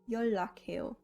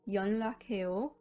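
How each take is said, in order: First: The middle consonant is pronounced as an l. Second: The middle consonant is pronounced as an n.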